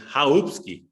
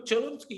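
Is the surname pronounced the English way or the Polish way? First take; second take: Polish; English. First: The surname is pronounced the original Polish way. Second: The surname is pronounced the anglicized English way. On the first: This is the name's original form. "it comes from Polish, Hungarian, Czech, and it's Chałupski" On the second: This is how friends know the name. "You're Chalupsky, you're not Chałupski"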